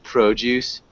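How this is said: The word is said with a British accent. "that sounds really British. She's saying like produce"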